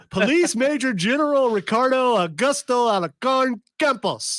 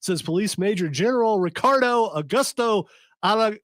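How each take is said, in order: First: Mock Colombian accent on the name, higher; Spanish accent. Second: Said in the usual way. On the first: Shown as a demonstration. Radio host retrying the general's name in a Colombian accent. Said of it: "Hey, that, that was excellent". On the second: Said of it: "You ended it too soon".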